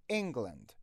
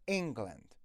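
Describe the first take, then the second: No difference in how they are said.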